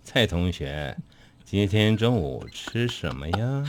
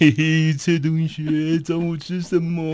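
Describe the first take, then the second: First: It sounds scheming, as if food were drugged. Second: It is said in a creepy-uncle voice.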